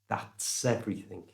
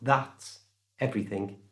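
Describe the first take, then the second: First: The words are joined by an s sound. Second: The words are said separately without linking. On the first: The speaker calls it right. "they joined that's and everything together, using the s sound in the middle" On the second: The speaker calls it wrong. "Not that everything"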